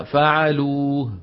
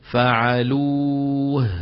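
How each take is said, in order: First: فعلوه with the final هاء almost gone, ending on the واو; weak final ha. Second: فعلوه slow, the final هاء breathed out clearly. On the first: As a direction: drop the هاء of فعلوه so only the واو is heard. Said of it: "شو خرجت؟ ضعيفة". (هاء ضعيفة تكاد تختفي) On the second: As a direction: let فعلوه end on an audible هاء. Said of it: "شايفين الهاء؟". (هاء واضحة في آخر الكلمة) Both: Shown as a demonstration.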